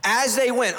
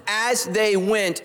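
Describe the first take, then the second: First: Said in the usual way. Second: As they went drawn out slowly, every word weighted; slow emphasis. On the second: Shown as a demonstration. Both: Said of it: "underline this".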